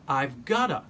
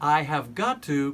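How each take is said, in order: First: The words are linked into a reduced form. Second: Each word is said fully and separately.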